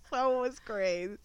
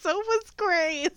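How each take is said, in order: First: Said in the usual way. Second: High, slow teasing squeal; teasing high retort. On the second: Real, not acted. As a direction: sing it out as a tease. Teasing retort after laugh.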